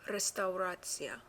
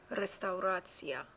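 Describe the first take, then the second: No difference in how they are said.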